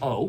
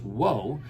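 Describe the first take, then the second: First: The syllable starts directly with the vowel. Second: The syllable starts with a W sound. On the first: This is a later simplified pronunciation. "changed just to o" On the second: This is the original pronunciation. "it would have originally been pronounced as wo"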